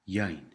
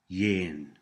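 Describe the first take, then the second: First: The vowel is an 'ai' glide sound. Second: The vowel is a short 'i' sound. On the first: This is the form taught in the course. "But in this course, we will use yain" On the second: This is a variant some speakers use. "Some people pronounce this word yin"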